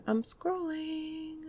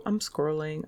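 First: High, slow sing-song; silly high voice. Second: Said in the usual way. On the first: Pretend. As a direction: stretch it out, up high. Repeats line in silly voice.

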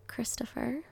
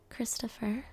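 The two takes are said the same way.

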